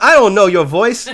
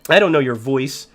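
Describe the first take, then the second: First: It is said in a put-on Australian accent. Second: It is said in the speaker's plain accent.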